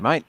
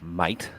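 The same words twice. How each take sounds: First: It is said in a warm, friendly tone. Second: It is said in a stern, hostile tone. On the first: Hello, you're my friend. "a nice reaction" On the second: You're someone I'm unhappy with. "that means you're not my mate"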